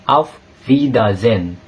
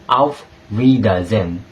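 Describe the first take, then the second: No difference in how they are said.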